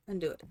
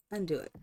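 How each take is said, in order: Both takes have the same delivery.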